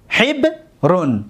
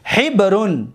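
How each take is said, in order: First: حبرون split slowly into hib, then run; syllable by syllable. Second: Said in the usual way. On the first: Shown as a demonstration. Teacher showing students the fifth pattern, حبرون slowly in separate syllables. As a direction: break حبرون in two, drawing out each part.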